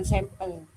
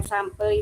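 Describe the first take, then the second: First: "sampel" said softer as SEM-pel; sampel as sempel. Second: "sampel" pronounced SAM-pel, open ah. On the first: Participant ruling out a reading, soft sampel as SEM-pel. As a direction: say "sampel" with first vowel eh. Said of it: "bukan sampel". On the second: Participant summing up the right reading, sampel with ah. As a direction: say "sampel" with ah in the first syllable. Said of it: "tetap sampel kita membacanya". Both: Shown as a demonstration.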